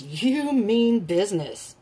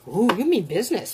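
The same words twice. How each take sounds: First: Slow, drawn-out "You mean business"; slow emphasis. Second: Said in the usual way. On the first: Real, not acted. Repeats it slowly for emphasis.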